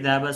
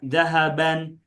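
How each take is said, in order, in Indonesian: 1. Kata itu berakhir dengan vokal a pendek. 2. Kata itu berakhir dengan a pendek ditambah n. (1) "perhatikan huruf terakhirnya adalah fathah" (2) "Tidak juga dibaca dhahaban"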